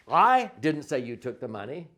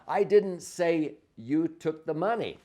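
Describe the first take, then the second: First: I didn't say you took the money, I stressed with a rising end. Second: I didn't say you took the money, with I punched high; stress on I. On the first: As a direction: stress I, let the end rise. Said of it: "You could say". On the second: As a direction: lean hard on I, keep the rest level. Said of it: "emphasize each one of the words differently". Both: Shown as a demonstration.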